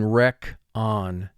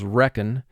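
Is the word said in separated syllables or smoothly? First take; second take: separated; smoothly. First: The two syllables are said apart and distinctly. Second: The word is said smoothly, as in conversation. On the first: This is a pronunciation used to help with spelling. "but for spelling, rec on" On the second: This is how the word is said in everyday talk. "The way we say this word in conversation is reckon"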